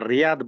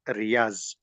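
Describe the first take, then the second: First: The final consonant is a d-like sound. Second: The final consonant is a z sound. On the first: "English also we will read it is a Riyadh"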